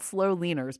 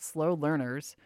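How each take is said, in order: First: "slow leaners" said with no R, as lean-ers; "leaners" spoken like the word lean; mispronounced. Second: "slow learners" with a clear R in "learners"; "learners" said carefully, correcting leaners; corrected pronunciation. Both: Shown as a demonstration. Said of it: "not slow leaners, but slow learners".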